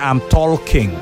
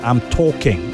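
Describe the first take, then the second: First: The L in talking is pronounced. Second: The L in talking is silent. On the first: The speaker calls it wrong. "You don't say" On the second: The speaker calls it right. "L is silent in walk"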